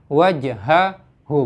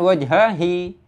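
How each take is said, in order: First: The final syllable ends with an 'oo' vowel. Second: The final syllable ends with an 'ee' vowel. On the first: The speaker calls it right. "hak domirnya itu harakatnya dhamma" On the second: The speaker calls it wrong.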